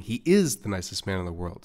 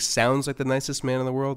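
First: "is" picked out with a pitch jump; firm emphasis on "is"; stress on is. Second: "sounds" lifted higher than the rest; emphasis on "sounds", as mere seeming; stress on sounds. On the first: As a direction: punch the word "is" to insist. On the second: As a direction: lean on "sounds", pitched up. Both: Real, not acted. Contrasts seeming with actually being.

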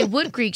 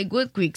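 First: Said in the usual way. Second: "Good Creek" with a gw sound for the W of Wood; mother's accented pronunciation. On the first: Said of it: "she wouldn't say Wood Creek". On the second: Retold or imitated. Imitating mother's accent, "Good Creek" said as Gwood Creek. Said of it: "She would say Good Creek".

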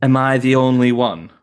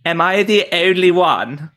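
First: Yorkshire accent with rounded vowels; northern Yorkshire accent. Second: Plummy upper-class British accent; posh British accent; Crown posh accent. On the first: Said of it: "if we go to Yorkshire ... So it'll be more like". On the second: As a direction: say it like royalty in The Crown. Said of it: "the Crown version". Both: Shown as a demonstration.

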